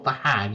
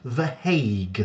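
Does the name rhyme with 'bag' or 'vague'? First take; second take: bag; vague. First: The vowel rhymes with 'bag'. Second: The vowel rhymes with 'vague'. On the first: The speaker calls it wrong. "not The Hag. It's not an old woman" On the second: The speaker calls it right. "it is pronounced The Hague"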